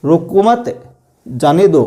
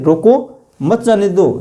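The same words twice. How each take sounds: First: "रोको मत" as one phrase, then "जाने दो"; pause after मत. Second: "रोको", a break, then "मत जाने दो" as one phrase; pause after रोको. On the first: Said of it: "अलग हो गया". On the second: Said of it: "यहाँ पे अलग बात हो गई". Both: Shown as a demonstration.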